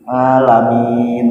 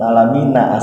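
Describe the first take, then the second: First: The word ends on a consonant. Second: The word ends with a short vowel. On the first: The reader stops at the end of the word. "kalau kita mau bacanya berhenti alamin" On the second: The reading continues without stopping. "Kan alamina aslinya"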